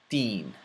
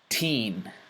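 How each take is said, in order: First: It starts with the tongue held behind the teeth. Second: It starts with a regular English t sound. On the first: "then with the letter ta" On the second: "first with the letter T"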